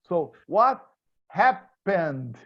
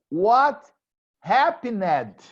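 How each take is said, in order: First: The past ending is a plain D sound. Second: The past ending is an extra syllable. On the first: The speaker calls it right. "I pronounce only D" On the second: The speaker calls it wrong. "We don't say, for example, what happened? This is terrible English"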